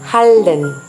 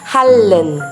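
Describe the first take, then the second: No difference in how they are said.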